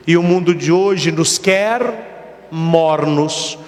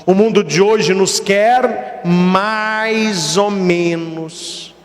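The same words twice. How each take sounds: First: Slow, weighty stress on "quer". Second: Very slow, drawn-out "quer" with weight; stress on quer. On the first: Preacher warns his congregation, heavy stress on quer. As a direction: drag out "quer" and lean on it. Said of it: "preacher stresses quer". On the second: Preacher repeats the warning, drawn-out stress on quer. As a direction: stretch "quer" even longer, then ease off. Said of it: "preacher repeats, stresses quer". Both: Shown as a demonstration.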